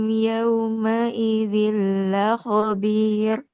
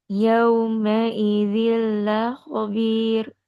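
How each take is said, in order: Both takes have the same delivery.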